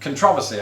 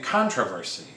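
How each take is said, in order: First: It is said with a British pronunciation. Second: It is said with an American pronunciation. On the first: "I pronounce it" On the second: "a lot of Americans would say"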